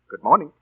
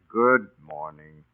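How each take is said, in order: First: It is said in a happy tone. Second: It is said in an unhappy tone.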